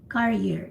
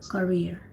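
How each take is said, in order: First: It sounds like the word carrier. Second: It sounds like the word career. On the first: It names a thing that carries something. The speaker calls it wrong. "I heard career instead of career. Actually, it's not even career, it's carrier" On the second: It names a profession. The speaker calls it right. "you meant about profession, so it's it's supposed to be career"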